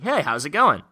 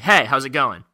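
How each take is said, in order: First: The pitch rises at the end. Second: The pitch falls at the end. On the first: The speaker is trying to build rapport. "Your tonality is supposed to go up" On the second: The speaker is breaking rapport. "breaking rapport, it slights down totally"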